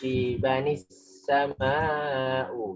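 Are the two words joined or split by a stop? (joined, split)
joined. The words run together through a linking n sound. The reading continues from the previous word. "tanda kalau lanjut dari sebelumnya"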